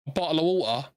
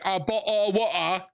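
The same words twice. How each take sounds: First: The t sounds are clearly pronounced. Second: The t sounds are dropped, stereotypical Cockney style. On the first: This is how people in South East London actually talk. The speaker calls it right. "No, it's" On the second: This is a stereotype of how Londoners talk. The speaker calls it wrong. "We don't say"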